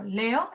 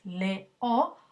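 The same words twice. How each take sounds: First: Said in the usual way. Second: "leo" in two separate syllables, le, o; split into syllables. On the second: Shown as a demonstration. Teacher showing students a hiatus, "leo" split le-o. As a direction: break "leo" slowly between e and o. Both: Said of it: "vamos a separar en sílabas distintas".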